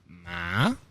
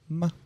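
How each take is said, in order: First: The pitch rises toward the end. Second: The syllable is short and clipped. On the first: "It's a rising tone" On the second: "the last one is like a staccato"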